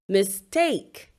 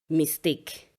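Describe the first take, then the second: First: The stress is on the second syllable. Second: The stress is on the first syllable. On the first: The speaker calls it right. "It is the second syllable stressed and not the first" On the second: The speaker calls it wrong. "Usually people would say"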